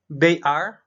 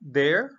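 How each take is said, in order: First: It is said as two separate full words. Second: It is said as one contracted syllable.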